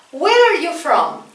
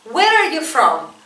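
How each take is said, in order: Both takes have the same delivery.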